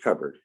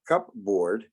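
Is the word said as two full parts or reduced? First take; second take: reduced; full parts. First: It is said as one reduced, blended word. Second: It is said as two full parts, cup and board. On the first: The speaker calls it right. "You pronounce it as cupboard. It changes to become something else altogether" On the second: The speaker calls it wrong. "you take cup, you take cup, and you take board, but you don't pronounce it as cupboard"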